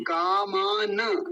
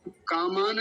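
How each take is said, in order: First: "कामान" slow, final na given its vowel; full na. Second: "कामान" closed on n, no final vowel; wrong half na. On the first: Teacher corrects it because na is whole, slow full na. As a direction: stretch "कामान" as kaa-maa-na. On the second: Teacher shows what not to say, clipped-off final na. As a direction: say "कामान" quicker as kaa-maan. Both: Shown as a demonstration. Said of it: "क्योंकि न पूरा है".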